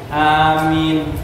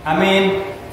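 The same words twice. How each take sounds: First: The vowels are held long and drawn out. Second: The vowels are said short and clipped. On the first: The speaker calls it right. "boleh dibaca dengan tiga harokat matobi'i" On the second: The speaker calls it wrong. "membaca aminnya secara pendek saja"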